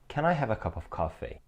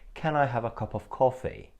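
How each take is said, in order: First: It is spoken in an American accent. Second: It is spoken in a British accent. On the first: "Which is extremely American" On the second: "in British English it would sound like"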